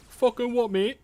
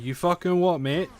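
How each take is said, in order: First: High, punchy Essex geezer challenge; mock Essex bloke snapping back; Essex accent. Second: Attempted Scottish, slipping toward Essex; a first go at a Scottish hard man; mock Scottish challenge, not quite landing; failed Scottish accent. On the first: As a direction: play it as an Essex lad squaring up. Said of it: "That's more like Essex". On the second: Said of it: "That's not Scottish".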